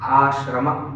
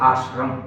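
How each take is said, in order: First: The word ends with an added a vowel. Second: The word ends on the m sound. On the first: The speaker calls it right. "it is ashrama" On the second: The speaker calls it wrong. "It is not ashram"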